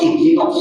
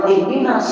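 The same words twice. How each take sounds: First: "ihdinas" with the proper emphatic ending, read correctly; correct Arabic reading. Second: "ihdinas" ending in a thin, ordinary s, sin; plain sin sound. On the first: Teacher gives the class the correct "ihdinas". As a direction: say "ihdinas" the right way, final sound full and clear. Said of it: "Nggak boleh. Harus ihdinas". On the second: Teacher shows the class the wrong sin in "ihdinas". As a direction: say "ihdinas" with a light plain s at the end. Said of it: "itu sin". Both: Shown as a demonstration.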